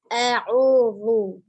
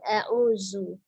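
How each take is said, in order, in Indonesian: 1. Huruf tengah itu adalah bunyi 'th' bersuara. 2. Huruf tengah itu adalah bunyi 'z' yang berdengung. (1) "Huruf zalnya ujung lidahnya ada di ujung gigi seri atas" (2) "bukan a'uzu"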